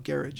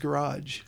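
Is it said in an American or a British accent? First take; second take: British; American. First: It is said in a British accent. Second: It is said in an American accent.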